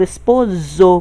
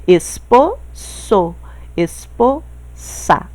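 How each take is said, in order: First: Esposo with a buzzing Z, espozo; wrong Z sound. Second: Slow esposo and esposa with a crisp unvoiced S; Spanish S sound. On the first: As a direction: say esposo with a voiced Z like Portuguese. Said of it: "com esse som de Z". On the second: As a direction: stretch esposo, esposa slowly with a clear hissing S. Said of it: "eu falo com o som do S". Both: Shown as a demonstration.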